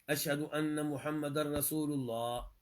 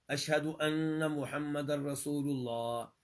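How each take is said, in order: The two takes are said the same way.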